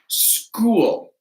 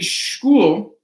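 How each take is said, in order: First: The word begins with a hard K sound. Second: The word begins with a soft ch sound. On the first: The speaker calls it right. "it's school with a hard K" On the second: The speaker calls it wrong. "it wouldn't be school"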